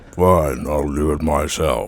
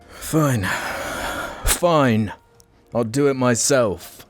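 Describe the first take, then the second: First: It is said in a Thanos impression. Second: It is said in his normal voice.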